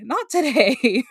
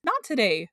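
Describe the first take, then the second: First: Not today slow, high and loud; drawn-out not today. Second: Said in the usual way. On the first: Retold or imitated. Repeated, slowed, louder.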